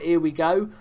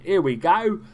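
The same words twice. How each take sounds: First: It is said in the speaker's ordinary voice. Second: It is said in an exaggerated put-on accent.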